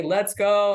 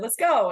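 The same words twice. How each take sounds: First: "Let's go" louder, with GO held longer; intended cheering inflection. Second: "Let's go" higher, with a short falling GO; misread summoning inflection. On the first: Reporter showing the inflection she should have used, drawn-out "Let's go". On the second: Reporter showing how it was misheard, short falling "Let's go". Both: Shown as a demonstration. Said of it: "Inflection can change something completely".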